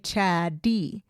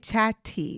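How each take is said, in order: First: The middle consonant is a soft D sound. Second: The middle consonant is a crisp T sound. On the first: The speaker calls it right. "We make it kind of a D sound" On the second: The speaker calls it wrong. "we don't say chatty"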